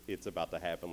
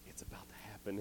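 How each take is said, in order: First: Said in the usual way. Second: Soft passed-along whisper. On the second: Retold or imitated. Soldiers pass the word around the camp, whispering. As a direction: whisper it down the line. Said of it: "he hears whispering coming around".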